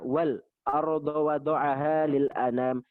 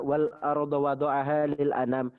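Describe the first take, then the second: First: A brief silent stop comes before the hamza. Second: The words run on smoothly without a stop. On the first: "ada saktah sebelum hamzah" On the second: "Kalau kita baca"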